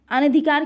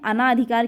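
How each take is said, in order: First: अनधिकार with a short a after n, a-na-dhi-kaar; correct form anadhikar. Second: अनाधिकार with a long aa after n, a-naa-dhi-kaar; wrong form anaadhikar. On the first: Teacher drilling the correct spelling: अनधिकार with a short na. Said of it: "शुद्ध शब्द है". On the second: Teacher showing students the wrong form: अनाधिकार with a long naa. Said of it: "गलत है". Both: Shown as a demonstration.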